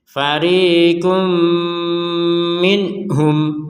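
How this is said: The recitation stops after 'minhum'. "berhenti di sini ya, kemudian melanjutkannya dari bal ini"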